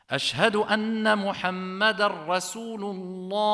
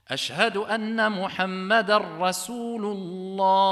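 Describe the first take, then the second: Both takes have the same delivery.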